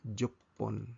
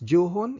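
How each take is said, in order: First: It is said with a held double p sound. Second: It is said with an h sound, ju-hon. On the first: The speaker calls it right. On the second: The speaker calls it wrong. "Imbis juhon"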